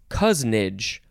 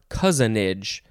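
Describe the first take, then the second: First: The word is said with two syllables. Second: The word is said with three syllables. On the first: "Two syllables" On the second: "three syllables"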